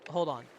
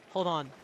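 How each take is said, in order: The two takes are said the same way.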